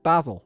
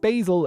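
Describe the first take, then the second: First: Basil is said the way people in Ireland say it. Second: Basil is said the American, non-Irish way. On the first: The speaker calls it right. "Everyone says basil" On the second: The speaker calls it wrong. "no one says basil in Ireland"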